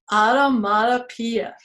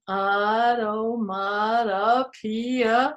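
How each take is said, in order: First: Said in the usual way. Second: "automatopoeia" slow, syllable by syllable; very slow teaching pronunciation of "automatopoeia"; sounding out slowly. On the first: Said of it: "It's called Automatopoeia". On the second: Shown as a demonstration. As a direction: stretch out every syllable of "automatopoeia". Sounds out the big word.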